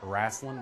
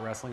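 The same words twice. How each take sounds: First: It is said with a Southern US accent. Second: It is said with a standard accent. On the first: "Yep, I said it, wrestling ... I'm from the South" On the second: "not wrestling"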